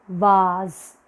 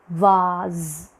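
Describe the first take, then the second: Both takes have the same delivery.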